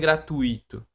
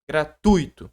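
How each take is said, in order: First: The stress falls on a different syllable. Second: The stress falls on the syllable 'tu'. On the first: The speaker calls it wrong. "não é gratuito" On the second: The speaker calls it right. "o acento tá no U"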